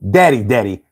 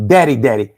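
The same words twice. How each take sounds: The two takes are said the same way.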